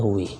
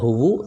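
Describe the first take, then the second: First: The word ends in an i vowel. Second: The word ends in a u vowel. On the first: "tidak ada huwi" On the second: "tidak ada huwu"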